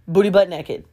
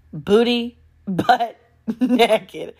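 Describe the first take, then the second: First: Said in the usual way. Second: "Booty butt naked" slow and higher, split by a laugh; drawn-out repeat. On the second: Real, not acted.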